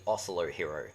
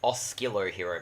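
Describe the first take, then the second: First: The first word has no k sound after s. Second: The first word has a k sound after s. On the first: The speaker calls it right. "but it's actually Oslo Hero" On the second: The speaker calls it wrong. "when I was a kid, I pronounced it Oskilo Hero"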